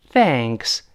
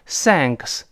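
First: "Thanks" with tongue between teeth for th. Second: "thanks" mispronounced as "sanks"; wrong S sound. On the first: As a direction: start "Thanks" with a true th sound. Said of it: "T H还要吐舌头". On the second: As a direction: replace the th of "thanks" with s. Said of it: "不要读成thanks". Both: Shown as a demonstration.

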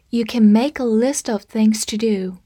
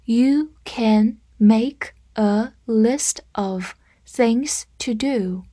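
First: Said in the usual way. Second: Very slow, one word at a time; slow read-through. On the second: Shown as a demonstration. Teacher demonstrating the list sentence for learners, slow read-through. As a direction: read it out slowly, separating each word. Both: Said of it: "我们来慢读一遍".

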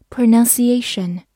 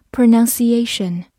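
Both takes have the same delivery.

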